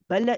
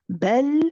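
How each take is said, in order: First: A short vowel bounce follows the final l. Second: The final l is held with no vowel. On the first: The speaker calls it wrong. "if you hear that bounce, it shouldn't be there" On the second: The speaker calls it right. "stay on it for a bit"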